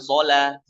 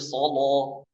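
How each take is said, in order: First: The l sound is light and thin. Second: The l sound is heavy and thick. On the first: The speaker calls it wrong. "bukan sholat" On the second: The speaker calls it right. "tapi solo. Tebalkan"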